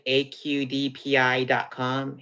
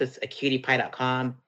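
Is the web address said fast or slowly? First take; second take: slowly; fast. First: The address is said at a slower pace. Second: The address is said at a quick pace.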